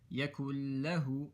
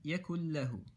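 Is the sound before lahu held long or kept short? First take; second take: held long; kept short. First: The sound before lahu is stretched out long. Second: The sound before lahu is kept short. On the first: The speaker calls it wrong. "don't say yakullahu, that's incorrect" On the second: The speaker calls it right. "you're not going to stretch this"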